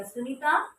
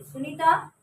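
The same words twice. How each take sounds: First: Raised call across the dark room. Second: Louder call. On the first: Narrator calling her missing sister by name. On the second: Calling the sister a second time, louder. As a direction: call her name again, louder and more urgent. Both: Retold or imitated.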